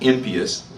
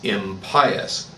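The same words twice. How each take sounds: First: It sounds like the word imp plus -ious. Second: It sounds like im- plus the word pious. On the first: Having the quality of an imp. The speaker calls it wrong. "as in having the quality of an imp" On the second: Not pious. The speaker calls it right. "meaning not pious"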